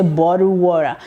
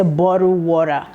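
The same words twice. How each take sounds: First: "bottle water" with a flapped d-like t and an r at the end, bɔdu wɔɹə; American accent. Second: American-style "bottle water", tongue-tap the t; American accent. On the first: Video lesson for a child, modelling the American accent. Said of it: "That's an American accent, say". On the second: Teaching a child online, demonstrating American "bottle water". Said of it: "That's an American accent". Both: Shown as a demonstration.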